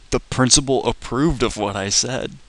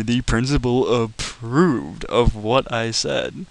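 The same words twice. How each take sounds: First: Said in the usual way. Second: Slowed down, each word leaned on in disbelief; slow emphatic repeat. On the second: Shown as a demonstration. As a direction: say it slowly so it sinks in, stressing "approved". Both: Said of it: "I'm not shitting you".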